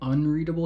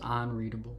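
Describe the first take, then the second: First: The first syllable sounds like 'un'. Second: The first syllable sounds like 'on'. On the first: "Instead of saying unreadable" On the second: "pronounces the prefix un like on"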